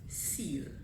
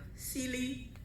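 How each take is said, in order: First: The name ends with a plain l sound. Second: The name ends with an ee sound. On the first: The speaker calls it right. "I usually say stop, singular, seal" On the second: The speaker calls it wrong. "Trinidadians usually see S E A L E and pronounce it either Sealy"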